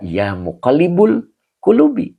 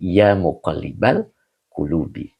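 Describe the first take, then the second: First: The vowel after 'muqallib' is 'u'. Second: The vowel after 'muqallib' is 'a'. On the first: The speaker calls it wrong. "Tidak boleh dibaca" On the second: The speaker calls it right.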